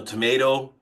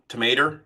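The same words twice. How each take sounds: First: Said in the usual way. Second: "tomato" said as "tuh-MAY-ter"; folksy "tomater" for "tomato"; accented pronunciation. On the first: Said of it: "something along those lines". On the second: Shown as a demonstration. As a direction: end "tomato" on an "er" sound. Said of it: "somebody that has an accent".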